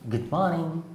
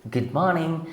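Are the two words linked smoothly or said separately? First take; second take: linked; linked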